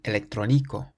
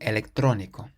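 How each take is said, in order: First: The stress is on the fourth syllable. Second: The stress is on the third syllable. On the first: The speaker calls it wrong. "normally we would stress the syllable before last, and we would say electrónico" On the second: The speaker calls it right. "because it has an accent on the O in the middle, we say electrónico"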